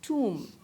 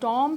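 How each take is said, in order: First: It has an 'oo' vowel and no b. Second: It has an 'aw' vowel and no b. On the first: The speaker calls it right. "बल्कि it is pronounced as टूम" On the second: The speaker calls it wrong. "ना ही टॉम है"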